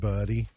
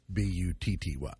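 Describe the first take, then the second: First: The middle consonant is a d sound. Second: The middle consonant is a t sound. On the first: The speaker calls it right. "But I think they pronounce it Buddy" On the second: The speaker calls it wrong. "so not BUTTY"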